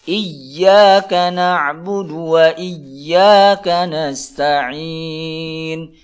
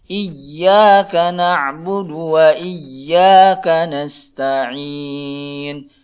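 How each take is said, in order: Both takes have the same delivery.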